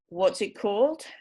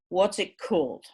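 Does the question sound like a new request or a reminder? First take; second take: reminder; new request. First: It sounds like asking to be reminded of something. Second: It sounds like a plain request for new information. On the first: The asker thinks they know the book already. "I think I know what book you're talking about, but remind me what the title is" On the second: The asker does not know which book it is. "I don't know the book you're talking about. Tell me the title of the book"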